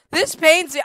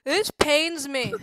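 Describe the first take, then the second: First: Higher, louder anguished repeat; louder pained cry. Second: Slow, drawn-out suffering; slow pained groan. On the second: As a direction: drag each word out in pain. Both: Real, not acted. Suffering through spicy chips.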